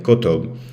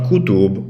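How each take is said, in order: First: The first vowel is a lax, uh-like sound. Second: The first vowel is a tense, full U. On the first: The speaker calls it right. "a slightly less tense U" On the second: The speaker calls it wrong. "It's not kutub"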